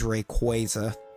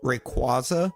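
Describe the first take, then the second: First: The middle syllable sounds like 'kway'. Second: The middle syllable sounds like 'kwaz'. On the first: This is the official way of saying it. The speaker calls it right. "the actual correct official pronunciation is" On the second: This is the speaker's habitual way of saying it. The speaker calls it wrong. "I always called it uh"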